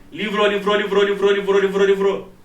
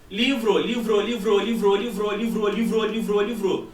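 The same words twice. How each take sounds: First: LIVRO fired off loud and fast on one pitch; rapid overlapping echo. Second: LIVRO chanted over and over on a level pitch; imitated echo. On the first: Teacher showing echoes crowding in too soon, rapid loud chant. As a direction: chant LIVRO loudly, run together without gaps. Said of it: "se eu tenho uma situação assim". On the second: Teacher imitating sound bouncing off a far surface, echo chant. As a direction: repeat LIVRO evenly like a distant reflection. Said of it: "O anteparo de reflexão tá longe". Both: Shown as a demonstration.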